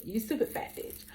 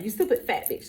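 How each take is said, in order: First: Hushed, unvoiced repeat; whispered. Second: Said in the usual way. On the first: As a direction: whisper the words, softer. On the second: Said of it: "That's what he said".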